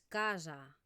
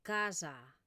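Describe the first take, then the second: No difference in how they are said.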